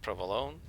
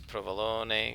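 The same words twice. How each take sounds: First: The final syllable is chopped off. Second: The final vowel is fully pronounced. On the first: This is the grandmother's dialect form. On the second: This is the formal standard Italian form.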